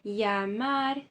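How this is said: The double L sounds like a y. This is the Spanish accent. "na Espanha, eles leem isso como se fosse uma letra I"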